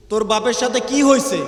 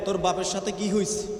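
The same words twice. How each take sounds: First: Uncle asking louder. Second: Said in the usual way. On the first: Retold or imitated. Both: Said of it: "গিয়া বলে".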